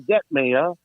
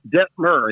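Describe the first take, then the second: First: The name ends with a 'meyer' sound. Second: The name ends with a 'fur' sound. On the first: The speaker calls it wrong. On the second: The speaker calls it right.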